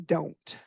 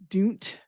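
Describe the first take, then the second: First: The vowel sounds like the word 'oh'. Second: The vowel sounds like the word 'do'. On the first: The speaker calls it right. "we say don't" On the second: The speaker calls it wrong. "we don't say do, don't"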